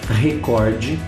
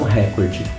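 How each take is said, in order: First: The stress is on the second syllable. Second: The stress is on the first syllable. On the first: It is the Portuguese-adapted word. The speaker calls it right. "a pronúncia ideal" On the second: It is the foreign form. The speaker calls it wrong. "não recorde. Recorde é o estrangeirismo"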